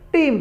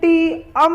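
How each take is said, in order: First: The word is said as one syllable. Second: The word is split into two syllables. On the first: The speaker calls it right. "इसको टीम बोलेंगे" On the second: The speaker calls it wrong. "नहीं बोलेंगे"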